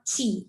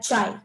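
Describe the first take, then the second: First: It starts with a ch sound and rhymes with see. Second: It starts with a ch sound and rhymes with eye.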